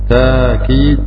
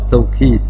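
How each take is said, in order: First: The first syllable has a long a vowel. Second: The first syllable has a w sound after t. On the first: "بالألف بدون همس" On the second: "لغة الواو"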